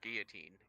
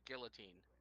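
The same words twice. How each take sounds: First: The double L is said as a Y sound. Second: The double L is said as an L sound. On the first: "The two L's make a y" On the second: "You said guillotine"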